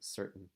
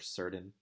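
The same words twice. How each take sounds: First: A glottal break replaces the T. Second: A clear T consonant is pronounced. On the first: The speaker calls it right. "I'm actually just making a glottal" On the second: The speaker calls it wrong. "we don't say in American English"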